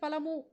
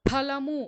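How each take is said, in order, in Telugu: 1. మొదటి హల్లును గాలి ఊదకుండా పలుకుతారు. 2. మొదటి హల్లును గాలి ఊదుతూ పలుకుతారు. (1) "మహాప్రాణం తీసేసి ఫలము అని పలికితే" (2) "ఫ ఇందులో మహాప్రాణం"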